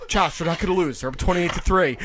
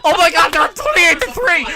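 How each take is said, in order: First: Said in the usual way. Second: Higher, mock-gleeful gloating; mock excited fan. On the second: Retelling a friend's early Super Bowl cheer, mock excited. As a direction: lightly imitate a cocky celebrating fan. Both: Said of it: "I say".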